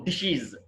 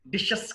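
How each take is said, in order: First: డిషీస్ as "dish-iz"; "-iz" ending. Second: డిషెస్ as "dish-ess"; wrong plural ending. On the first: Teacher correcting learners' plural, డిషీస్ as "dish-iz". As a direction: end డిషీస్ on an i and buzzed z. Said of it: "ఇజ్". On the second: Teacher showing learners the mistake, డిషెస్ as "dish-ess". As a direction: end డిషెస్ on open e and hissed s. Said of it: "కాదు". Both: Shown as a demonstration.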